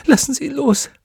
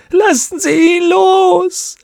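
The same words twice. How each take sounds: First: Very high, anguished plea; quick high cry for mercy; desperate pleading. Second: Long, high, crying wail; drawn-out loud shriek of pleading; agonised scream. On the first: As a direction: beg through torment. Tortured witch pleads. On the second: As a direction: scream it out slowly, in torment. Plea grows into a scream. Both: Acted.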